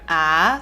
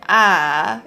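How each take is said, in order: First: It is said in second tone, rising. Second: It is said in third tone, going down. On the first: "second tone, it goes up" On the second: "third tone, it goes down"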